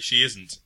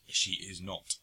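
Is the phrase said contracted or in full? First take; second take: contracted; full. First: The words are run together as a contraction. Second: Each word is said fully and separately. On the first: This is the normal everyday way to say it. The speaker calls it right. "you say she isn't" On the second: This is the character's overly articulated way of speaking. The speaker calls it wrong. "She is not. Every single time"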